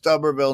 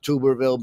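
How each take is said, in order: First: The first syllable sounds like 'tub'. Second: The first syllable sounds like 'tube'. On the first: The speaker calls it right. "It's pronounced Tuberville" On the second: The speaker calls it wrong. "not Tuberville"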